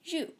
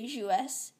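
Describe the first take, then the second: First: The final S is silent. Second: The final S is sounded aloud. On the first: The speaker calls it right. "you say joue" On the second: The speaker calls it wrong. "You don't say joues"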